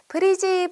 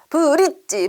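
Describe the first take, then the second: First: It is said gently and softly without a stop. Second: It is said forcefully with a hard clipped stop. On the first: The speaker calls it right. "이렇게 살살 건너야 돼요" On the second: The speaker calls it wrong. "이렇게 꽝꽝꽝꽝 힘줘서 건너면 안 되고요"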